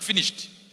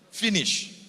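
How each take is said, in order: First: The word ends with an audible -ed sound. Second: The word ends without any -ed sound. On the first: This is not how the original speaker said it. "Not finished" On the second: This is how the original speaker said it.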